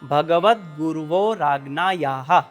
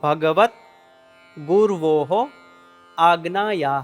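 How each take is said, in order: First: The words are run together as one. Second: The three words are said separately. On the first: "ભેગો થઈ" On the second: "આ શબ્દમાં છૂટા છૂટા ત્રણ શબ્દ છે"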